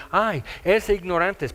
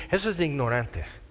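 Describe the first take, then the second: First: Burla despectiva imitada. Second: Said in the usual way. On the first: Retold or imitated. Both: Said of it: "porque dicen".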